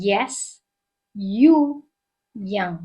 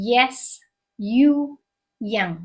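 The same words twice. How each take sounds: The two takes are said the same way.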